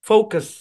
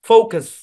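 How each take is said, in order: No difference in how they are said.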